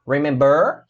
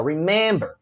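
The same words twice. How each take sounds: First: "remember" stressed on BER, rising; stress on the last syllable. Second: "remember" stressed on MEM, falling; stress on the middle syllable. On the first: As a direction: wrongly say "remember" as re-mem-BER. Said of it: "Mas a sílaba tônica qual é". ("remember" com a tônica errada, no BER) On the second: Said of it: "É a men". ("remember" com a sílaba tônica no MEM) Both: Shown as a demonstration.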